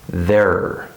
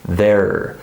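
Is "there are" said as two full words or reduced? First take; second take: reduced; reduced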